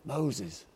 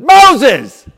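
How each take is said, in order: First: The name is said softly and flatly. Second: The name is called out loudly.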